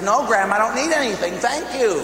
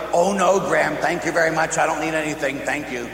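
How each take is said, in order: First: Higher, louder, insisting no; insistent refusal. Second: Said in the usual way. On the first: Retold or imitated. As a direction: push back harder, voice climbing. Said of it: "she pushed the guy and says". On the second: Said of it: "I go".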